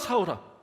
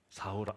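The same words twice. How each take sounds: First: The name is called out quickly and urgently. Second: The name is called slowly in a warm low voice. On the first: The caller is in a hurry. The speaker calls it wrong. "아마 이렇게 부르진 않았을 것 같아요. 왜냐면 급한 게 없으셔" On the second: The caller is in no hurry and speaks tenderly. The speaker calls it right. "따뜻하게? 저음으로?"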